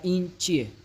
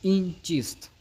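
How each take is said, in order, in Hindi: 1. आखिरी शब्द छोटा होकर 'chie' बोला गया है। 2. आखिरी शब्द पूरा बोला गया है, 'chist'।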